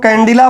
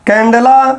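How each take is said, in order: First: कैंडिला, middle syllable "di" rather than "de"; variant with "i". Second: कैंडेला, middle syllable "de" rather than "di"; candela with "e". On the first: Teacher showing how some people say it, कैंडिला with "di". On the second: Teacher giving students the unit's name, कैंडेला said with "de". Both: Shown as a demonstration. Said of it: "कुछ लोग कैंडिला बोलते हैं".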